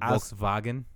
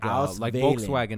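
First: The W is said as a V sound. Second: The W is said as an English W sound.

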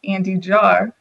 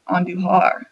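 First: The name is said with an American pronunciation. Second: The name is said with a Spanish pronunciation.

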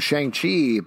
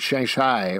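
First: The name is said the familiar anglicized way. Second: The name is said with a different pronunciation. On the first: This is how the group has been saying it. The speaker calls it wrong. "We've called him Shang-Chi" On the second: This is meant to be the actual pronunciation. The speaker calls it right. "the way you actually pronounce it. Shang-Chi or something like that"

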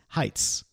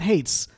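First: The vowel sounds like the one in 'kite'. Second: The vowel sounds like the one in 'gate'. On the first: The speaker calls it right. "correct us here, Heights" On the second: The speaker calls it wrong. "not Hates"

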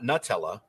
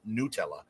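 First: The first syllable sounds like 'nut'. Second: The first syllable sounds like 'new'. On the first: The speaker calls it wrong. "It's not Nutella" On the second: The speaker calls it right. "It's an Italian company who says it's pronounced Nutella"

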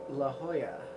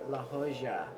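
First: The name is said with a plain English accent. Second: The name is said with a Spanish-flavored accent.

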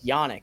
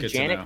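First: The name begins with a soft J sound. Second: The name begins with a hard J sound. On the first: The speaker calls it right. "is it a soft J pronunciation as well?" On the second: The speaker calls it wrong. "I was in the Janik camp"

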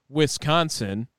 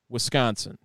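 First: The s and c sounds are split apart. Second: The s and c sounds run together. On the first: This is how outsiders say it. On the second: This is how locals say it.

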